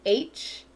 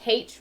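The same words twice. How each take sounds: First: "H" as aitch, no h sound; standard American pronunciation. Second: "H" as haitch, with the h sounded; British-style pronunciation. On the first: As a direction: start "H" on the vowel: aitch. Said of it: "rather than H". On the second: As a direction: breathe an h onto "H": haitch. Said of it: "I say H rather than". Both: Shown as a demonstration.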